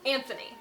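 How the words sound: The name is said the American way. "I'm American"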